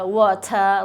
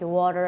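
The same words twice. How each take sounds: First: The t is crisp, in a British accent. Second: The t is flapped, in an American accent. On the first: This is how it was taught in North Korea. "In North Korea, they taught us like better, water" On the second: This is how it is said now. "But right now, I'm more like water and better"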